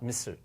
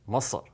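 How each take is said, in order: First: The vowel is light and fronted in the mouth. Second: The vowel is deep and pulled back. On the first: The speaker calls it wrong. "not at the front of the uh, mouth" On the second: The speaker calls it right. "Very deep sound"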